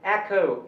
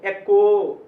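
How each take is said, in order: First: It starts with an 'eh' vowel and breathy kh. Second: It starts with an 'eh' vowel and plain k. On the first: The speaker calls it right. "इसको बोलना है एखो" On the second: The speaker calls it wrong. "ये नहीं बोलना है"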